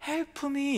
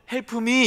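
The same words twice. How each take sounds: First: "Help me" said as 헬프 미 with Korean vowels; "Help me" said flat with a Korean accent, "help" as 헬프; flat Korean-style help me. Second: "Help me" said plainly, Korean sounds; "Help me" in Korean-accented English; plain Korean-style help me. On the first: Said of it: "제 발음이 엉망진창인데". (헬프 미, 한국식으로 또박또박) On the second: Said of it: "이렇게 하면 못 알아들으니까". (한국식 발음 그대로) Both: Shown as a demonstration.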